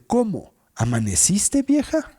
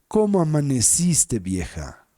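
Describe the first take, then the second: First: It is asked in disbelief, broken after 'cómo'. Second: It is asked warmly, as one question.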